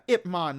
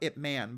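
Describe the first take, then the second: First: The second word has an open 'o' vowel, 'mon'. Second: The second word has a flat 'a' vowel, 'man'. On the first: The speaker calls it right. "exactly. Uh, yeah, Ip Man" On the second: The speaker calls it wrong. "not Ip Man"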